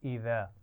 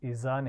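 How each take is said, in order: First: The middle consonant is a soft, non-hissing sound. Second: The middle consonant is a hissing, whistling z. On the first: The speaker calls it right. "नरमी से पढ़ा जाना है" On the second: The speaker calls it wrong. "सीटी की आवाज़ नहीं आनी चाहिए। इज़ा नहीं पढ़ेंगे"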